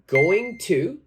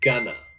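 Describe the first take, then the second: First: Both words are said fully and separately. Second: The words are shortened and run together.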